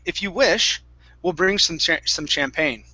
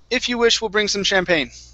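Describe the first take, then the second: First: There is a pause after 'if you wish'. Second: It runs straight through without a pause. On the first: The speaker calls it right. "The correct way to say this would be, ... So we pause" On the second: The speaker calls it wrong. "this would be incorrect"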